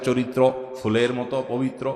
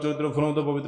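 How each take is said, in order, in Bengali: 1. বাক্যটি ধীরে ও শান্তভাবে বলা হয়েছে। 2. বাক্যটি দ্রুত ও তাড়াহুড়ো করে বলা হয়েছে।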